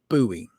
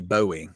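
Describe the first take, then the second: First: The word does not sound like Bowie. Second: The word sounds like the name Bowie. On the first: The speaker calls it right. "no, it's buoy" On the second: The speaker calls it wrong. "they always pronounce buoy, Bowie"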